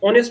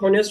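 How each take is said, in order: First: The word begins with a vowel sound. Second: The word begins with an h sound. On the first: The speaker calls it right. "उसमें बेटा एच silent होता है" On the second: The speaker calls it wrong. "ऑनेस्ट को आप हॉनेस्ट बोलते हो"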